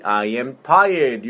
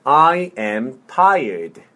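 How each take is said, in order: First: Said in the usual way. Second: Slow, word by word; slow model. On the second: Shown as a demonstration. Teacher modelling "I am tired" for repetition, slowly. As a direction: space out each word for a learner. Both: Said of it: "천천히".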